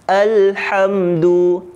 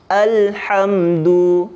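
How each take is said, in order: The two takes are said the same way.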